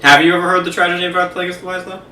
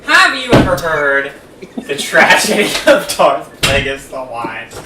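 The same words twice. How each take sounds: First: Quick, higher, tossed-off question; casual retelling. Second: Slow, drawn-out dramatic recital; theatrical villain monologue. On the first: Co-host asking friend about the legend, quick and chatty. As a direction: rattle it off like casual chat. Same line redone as casual chat. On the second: Co-host reciting a film monologue to friend, slow and theatrical. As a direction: intone it slowly, like a portentous storyteller. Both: Acted.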